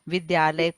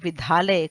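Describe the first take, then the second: First: The middle consonant is a plain unaspirated d. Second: The middle consonant is an aspirated dh. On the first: The speaker calls it right. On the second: The speaker calls it wrong.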